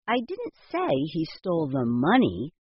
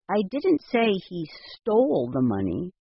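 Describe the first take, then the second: First: The stress is on the word money. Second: The stress is on the word stole.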